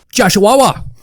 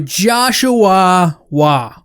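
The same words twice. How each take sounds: First: The name is said very fast. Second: The name is said at a normal pace.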